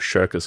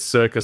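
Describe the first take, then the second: First: The word starts with a 'sh' sound. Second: The word starts with an 's' sound. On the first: The speaker calls it wrong. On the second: The speaker calls it right.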